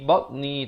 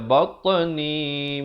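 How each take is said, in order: First: The t is said plainly without a bounce. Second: The t is released with a bouncing echo. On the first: The speaker calls it wrong. "Jangan baca batni batni, tak betul" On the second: The speaker calls it right. "ada qalqalah, diberikan pantulan"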